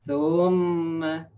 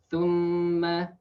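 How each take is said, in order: The two takes are said the same way.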